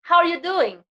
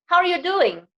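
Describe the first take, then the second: Both takes have the same delivery.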